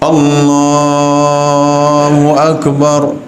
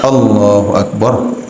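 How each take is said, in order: First: The phrase is drawn out long. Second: The phrase is said short. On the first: The speaker calls it wrong. "Ketika duduk tahiyat dipanjangin" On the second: The speaker calls it right. "Nah, pendek"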